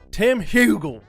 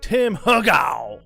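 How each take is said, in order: First: The last syllable sounds like the word gull. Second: The last syllable does not sound like gull. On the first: The speaker calls it right. "I'm going to say it that way" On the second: The speaker calls it wrong. "this is the last time I'm going to say his name wrong"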